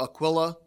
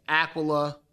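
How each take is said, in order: First: Aquila as uh-KWIL-uh; alternative pronunciation. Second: Aquila as AK-wuh-luh; first pronunciation variant. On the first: Teacher offering another version of the name, Aquila said uh-KWIL-uh. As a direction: stress the middle syllable of Aquila, short i. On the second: Teacher showing how the name is heard, Aquila said AK-wuh-luh. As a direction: stress the first syllable of Aquila, weak middle vowel. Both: Shown as a demonstration. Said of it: "you'll hear different pronunciations of his name".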